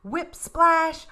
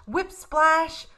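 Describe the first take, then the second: No difference in how they are said.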